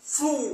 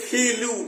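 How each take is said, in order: First: The f and l blend with no vowel. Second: An extra vowel splits the f and l. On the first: The speaker calls it right. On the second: The speaker calls it wrong.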